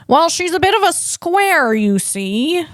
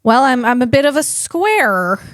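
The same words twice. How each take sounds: First: High, old-film twang of a bad impression; terrible Jimmy Stewart. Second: Said in the usual way. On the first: Mocking himself as a square, in a terrible Jimmy Stewart voice. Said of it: "a very terrible Jimmy Stewart".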